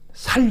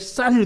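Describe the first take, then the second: First: The initial s sound is plain. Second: The initial s sound is tense. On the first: The speaker calls it wrong. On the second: The speaker calls it right.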